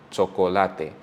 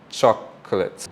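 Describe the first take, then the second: First: The vowels sound like pure Spanish vowels. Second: The vowels sound like English vowels. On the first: "In Spanish, it will be chocolate" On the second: "So in English, we would say chocolate"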